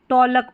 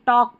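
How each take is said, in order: First: The word is said with an l sound. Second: The word is said with no l sound. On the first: The speaker calls it wrong. "आपने देखा है कभी टॉलक पढ़ते हैं, नहीं" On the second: The speaker calls it right. "टॉक पढ़ते हैं"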